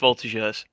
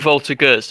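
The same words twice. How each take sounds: First: The g is said as a soft j. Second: The g is said as a hard g. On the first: The speaker calls it right. "with a, like you say with a J" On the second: The speaker calls it wrong. "I've been saying Voltigeurs this whole time?"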